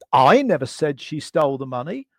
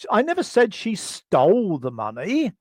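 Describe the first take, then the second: First: "I" pushed up and leaned on, the rest of the sentence falling away; stress on I. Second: "never" lifted and leaned on, the rest said lightly; stress on NEVER. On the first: Trainer showing a workshop how emphasis shifts meaning, stress on "I". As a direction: hit "I" hard, as if someone else did it. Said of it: "because I suggest that perhaps Chris did". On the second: Trainer giving a second version of the emphasis example, stress on "never". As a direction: push "never" to deny it flatly. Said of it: "Or I might say". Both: Shown as a demonstration.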